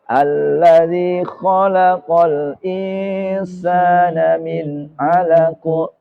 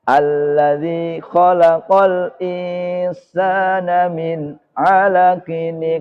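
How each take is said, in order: First: The last word ends cut short on the final consonant. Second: The last word ends with an added -in ending. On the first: The reciter stops at the end of the verse. "tapi kalau waqaf" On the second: The verse runs straight on into the next one. "diwasol menjadi"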